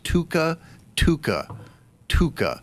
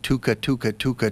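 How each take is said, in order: First: The word is repeated at a slow pace. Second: The word is repeated at a fast pace.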